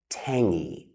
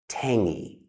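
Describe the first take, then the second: First: The word is said with an ng sound. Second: The word is said with an ng sound.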